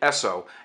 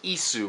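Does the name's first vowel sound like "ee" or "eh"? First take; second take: eh; ee. First: The first vowel is a short "eh" sound. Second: The first vowel is a long "ee" sound. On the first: The speaker calls it wrong. "I was pronouncing it Esso" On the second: The speaker calls it right. "it's actually pronounced Isu with a long E"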